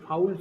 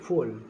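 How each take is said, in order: First: The vowel sounds like 'ow'. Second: The vowel sounds like 'oh'. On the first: The speaker calls it right. "ফাউল সম্ভবত" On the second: The speaker calls it wrong. "Sorry এম উচ্চারণটা হতে পারে ভুল করছে"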